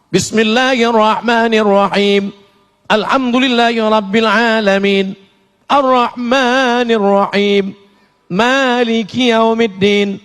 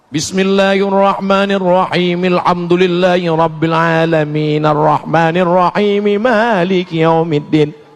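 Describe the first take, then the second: First: It pauses at the end of each verse. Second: The verses run together without pauses.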